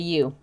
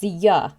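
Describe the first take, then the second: First: The vowel is a full, rounded 'oo' sound. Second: The vowel is reduced to a short 'uh' sound. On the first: "he doesn't say you" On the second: "It's ya"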